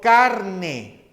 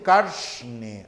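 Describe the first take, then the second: First: It is said in the speaker's plain accent. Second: It is said in an Andean accent, with a hissed r. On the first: "Yo digo carne" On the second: "en países andinos dicen carne, arsh"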